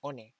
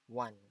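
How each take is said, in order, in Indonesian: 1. Dibaca dengan bunyi huruf bahasa Indonesia. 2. Diucapkan dengan bunyi bahasa Inggris. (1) "apa cara mengeja bahasa Indonesia, berarti kalian akan mengucapkannya dengan uh, bacaan one, dan itu kurang tepat ya" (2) "Yang tepat itu cara membaca one itu adalah ini"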